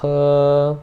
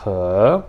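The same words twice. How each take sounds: First: He held long and level; first-tone he. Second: He starting low and climbing; rising-tone he. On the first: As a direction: keep he on one steady pitch. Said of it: "Primeiro tom também". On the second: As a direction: begin he at the bottom and slide up. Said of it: "você começa embaixo e você vai subindo". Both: Shown as a demonstration.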